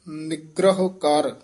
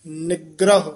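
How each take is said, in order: First: Slow ਨਿਗ੍ਰਹ ਕਰ, falling, then a clear pause; ਨਿਗ੍ਰਹ ਕਰ slow with a full stop after; pause after phrase. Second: ਨਿਗ੍ਰਹ pressed hard and louder, every sound crisp; ਨਿਗ੍ਰਹ tight and firm; said tightly. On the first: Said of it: "ਇੱਥੇ ਵਿਸਰਾਮ ਲਾਉਣਾ ਹੈ". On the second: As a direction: clamp down on ਨਿਗ੍ਰਹ. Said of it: "ਇਹ ਕਸ ਕੇ ਬੋਲਣਾ ਹੈ". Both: Shown as a demonstration.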